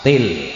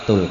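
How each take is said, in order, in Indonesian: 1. Suku kata terakhir memiliki vokal i. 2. Suku kata terakhir memiliki vokal u. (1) "Til, ora tul" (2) "ora tul"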